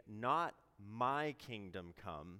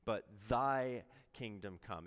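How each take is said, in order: First: "Not my kingdom come" with the weight on "my"; slow and deliberate, leaning on "my"; stress on my. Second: "but thy kingdom come" with the weight on "thy"; stress on thy. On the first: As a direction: set "my" apart as the wrong word. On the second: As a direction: lean on "thy" as the answer to "my". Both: Shown as a demonstration. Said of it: "we are saying".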